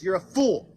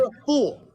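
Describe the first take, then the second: First: Said in the usual way. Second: Higher and louder, spitting out the insult; angry shout. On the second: Real, not acted. Insulting the host in a debate, loud angry shout. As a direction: shout it straight at him.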